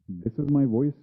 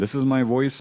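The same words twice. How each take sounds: First: The voice has no mid-side EQ applied. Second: The voice has mid-side EQ applied. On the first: "without M S E Q" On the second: "with M S E Q"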